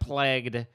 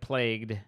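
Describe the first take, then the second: First: The vowel sounds like the vowel in leg. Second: The vowel sounds like the vowel in day. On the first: "he says like plagued" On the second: "instead of plagued"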